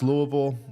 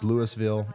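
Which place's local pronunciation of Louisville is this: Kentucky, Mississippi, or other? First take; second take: Kentucky; Mississippi. First: It is pronounced the Kentucky way. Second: It is pronounced the Mississippi way. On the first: This is the town in Kentucky. "In Kentucky, it's Louisville" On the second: This is the town in Mississippi. "In Mississippi, it's Louisville"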